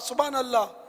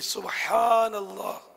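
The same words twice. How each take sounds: First: The phrase is said quickly, sounds run together. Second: The phrase is said slowly, each sound articulated. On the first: The speaker calls it wrong. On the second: The speaker calls it right.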